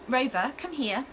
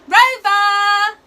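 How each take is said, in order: First: It is said in a calm, conversational voice. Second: It is said in a big, loud, urgent voice.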